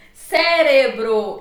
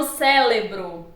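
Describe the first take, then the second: First: "Cérebro" slowly, r in the middle: CÉ-re-bro; correct pronunciation. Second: "cérebro" with l: CÉ-le-bro; wrong pronunciation. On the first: Teacher giving the proper form, slow "Cérebro" with r. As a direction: tap the r in "Cérebro". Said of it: "a forma adequada e a forma inadequada". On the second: Teacher showing the improper form, "cérebro" as célebro. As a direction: swap the middle r of "cérebro" for l. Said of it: "e não cérebro". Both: Shown as a demonstration.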